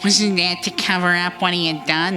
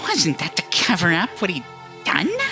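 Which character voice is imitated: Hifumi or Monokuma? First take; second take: Hifumi; Monokuma. First: Said in a put-on voice of the intended character. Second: Said in a put-on voice of the mascot character. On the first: The speaker calls it right. "That's better" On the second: The speaker calls it wrong. "I did the Monokuma voice or something"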